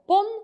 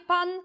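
First: The vowel sounds between 'a' and 'o'. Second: The vowel is a plain open 'a'. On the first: This is the old dialect form. "głoskę pośrednią między a i o" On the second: This is the standard form. "a nie pan"

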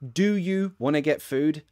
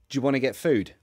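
First: Both words of 'do you' are said in full. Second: 'Do you' is blended into one J sound. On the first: "You can pronounce it like" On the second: "More commonly, in conversation, we might just say"

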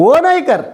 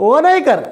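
The two takes are said the same way.

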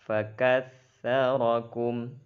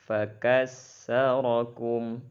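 First: The consonant is pronounced as a 'th' sound. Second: The consonant is pronounced as a plain 's'. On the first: The speaker calls it right. "Seharusnya dibaca dengan huruf tha. Begitu seharusnya" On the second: The speaker calls it wrong. "menggantikan ta dengan sin. Contoh"

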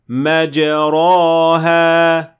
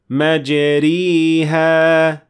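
First: The vowel after r is an open a. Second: The vowel after r is a full close i. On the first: "That is an alif, so it is not correct" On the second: "because that would then be a ya"

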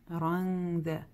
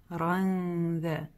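No difference in how they are said.

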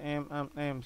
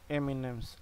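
First: Two letter names with nothing between them. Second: The letters are linked by an 'and' sound. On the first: The speaker calls it wrong. "No se dice MM" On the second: The speaker calls it right. "se dice"

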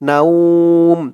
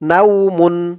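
First: The word ends on a bare 'm' sound. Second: The word ends with a full 'mun' syllable. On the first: The reader stops at this point. "থামার কারণে নাউমুনটা নাউম হয়ে গেছে" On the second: The reading continues without stopping. "মিম দুই পেশ মুন"

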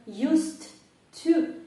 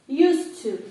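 First: The two words are said separately, with a break. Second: The two words are run together as one. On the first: The speaker calls it wrong. "Я його прочитала окремо, але так не кажуть" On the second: The speaker calls it right. "Кажуть просто все разом"

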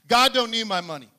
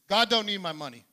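First: It is said with passion and energy. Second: It is said calmly, without passion.

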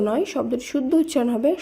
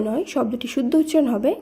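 Both takes have the same delivery.

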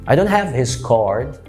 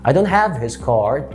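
The two takes are said the same way.

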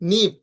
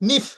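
First: The final p is unaspirated, without a puff. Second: The final p is aspirated, with a puff. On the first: The speaker calls it right. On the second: The speaker calls it wrong.

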